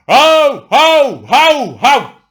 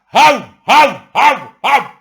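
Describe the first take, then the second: First: Loud, high barking yaps, mocking people; mock dog barking. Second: Loud, high barks, the same outrage flipped; mock dog barking. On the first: Mocking the public's outcry over devaluation, loud barks. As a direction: bark like an angry dog. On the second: Mocking the outcry over revaluation, loud barks. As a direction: yap like a dog again at the other side.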